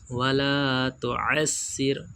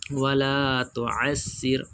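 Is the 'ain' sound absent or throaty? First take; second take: throaty; throaty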